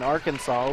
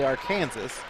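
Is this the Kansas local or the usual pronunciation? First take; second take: usual; Kansas local. First: It uses the usual widespread pronunciation. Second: It uses the Kansas local pronunciation. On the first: "instead of saying Arkansas" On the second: "it's the same here in Kansas, right? ... we say Arkansas"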